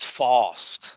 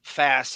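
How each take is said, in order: First: Mock Brooklyn accent, broad open vowel; horrible Brooklyn accent. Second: Said in the usual way. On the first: Host mocking a man's vowels, Brooklyn accent. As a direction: say fast as "fawst", Brooklyn style. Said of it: "Brooklyn accent". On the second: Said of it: "he says words like fast".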